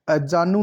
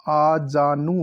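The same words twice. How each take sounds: First: अजानु opening on short a; wrong pronunciation. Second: Slow आजानु with long opening aa; correct pronunciation. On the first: Teacher showing the error, अजानु with short first a. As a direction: say अजानु as "a-jaa-nu". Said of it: "नहीं होता". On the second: Teacher correcting the word, आजानु slowly with long aa. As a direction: stretch आजानु to "aa-jaa-nu". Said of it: "होता है ये". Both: Shown as a demonstration.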